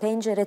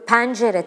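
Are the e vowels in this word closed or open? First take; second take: closed; open. First: The e vowels are pronounced closed. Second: The e vowels are pronounced open. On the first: The speaker calls it right. "Halbuki hepsinin kapalı olması lazım" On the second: The speaker calls it wrong. "Bakıyorum hep bu E'ler açıldı böyle"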